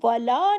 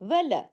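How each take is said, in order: First: The vowel is drawn out long. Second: The vowel is kept short. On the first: The speaker calls it wrong. "इसको वला नहीं करना है, अलिफ नहीं लगाना है" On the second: The speaker calls it right. "वाव जबर व, लाम जबर ला"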